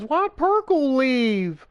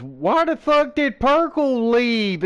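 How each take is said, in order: First: Slow, higher drawn-out mock whine; lightly voiced coworker, dragging it out; imitating her again. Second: Mock slow, higher drawn-out whine; lightly voiced coworker, stretching each word out; imitating her question. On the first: Retold coworker asking why Perkle left, a slow higher mock whine. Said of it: "She goes". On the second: Coworker's puzzled question, retold as a slow, higher mock whine. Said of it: "is literally what she said".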